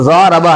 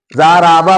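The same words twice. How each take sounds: First: ज़ारबा with long ज़ा and short रा; correct short syllable. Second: ज़ाराबा with रा dragged as long as ज़ा; mistaken stretching. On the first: Teacher gives students the right reading, ज़ारबा with short रा. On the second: Teacher mimics how learners overstretch, ज़ाराबा with long रा. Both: Shown as a demonstration. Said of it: "रा को भी खींच लेते हैं".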